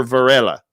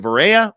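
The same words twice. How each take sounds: First: "Varela" with a clear L, "va-RELL-a"; alternative pronunciation. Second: "Varela" with the L dropped, Spanish-style "va-RAY-a"; pronunciation check. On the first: Host offers listener the other surname reading, "Varela" with L. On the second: Host asks listener about the surname, "Varela" without L. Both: Shown as a demonstration. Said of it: "I apologize if I butchered your last name".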